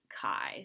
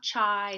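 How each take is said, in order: First: The word begins with a K sound, like 'K I'. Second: The word does not begin with a K sound. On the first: The speaker calls it right. "So kind of like K I" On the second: The speaker calls it wrong. "It's not chai"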